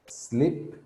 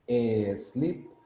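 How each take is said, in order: First: The word starts directly with the s sound. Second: An extra vowel sound comes before the s. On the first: The speaker calls it right. "I'm not pronouncing any E" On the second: The speaker calls it wrong. "le ponemos una E y decimos e sleep"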